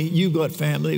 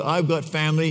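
First: You've lightly hit, got family falls away; a gentle push on You've, family said plainly; stress on You've. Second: Said in the usual way. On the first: Shown as a demonstration. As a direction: lean on You've to turn to the listener.

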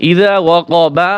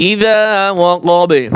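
First: ইযা ওয়াকাবা slowly, with a full "baa" vowel; unstopped reading. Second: ইযা ওয়াকাবে with long "zaa" and bounced final b; qalqalah stop. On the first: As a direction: finish ওয়াকাবা on an open "ba". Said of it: "এই বা হরফ কলকলা". (ইযা ওয়াকাবা, শেষে পুরো "বা") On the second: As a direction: hold "za", pop the b of ওয়াকাবে. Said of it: "কলকলা হবে". (ইযা ওয়াকাবে, শেষে বা-তে কলকলা) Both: Shown as a demonstration.

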